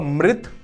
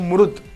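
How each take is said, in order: First: The r is followed by an i vowel. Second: The r is followed by a u vowel. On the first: This is how some regions say it. "कहीं पर इसको री बोलते हैं" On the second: This is how other regions say it. "कहीं पर इसको रू बोलते हैं"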